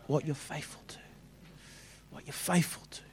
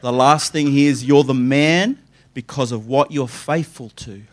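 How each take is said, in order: First: Breathy whispered repeat; whispering. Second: Said in the usual way. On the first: Shown as a demonstration. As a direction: whisper it for weight. Hushed repeat for emphasis.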